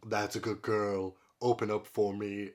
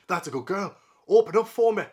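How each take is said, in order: First: It is read without a Scottish accent. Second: It is read with a Scottish accent.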